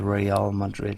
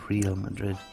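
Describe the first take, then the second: First: Real is pronounced the Spanish way, like re-al. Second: Real is pronounced like the English word real. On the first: The speaker calls it right. "it is still Real Madrid" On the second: The speaker calls it wrong. "and not Real Madrid"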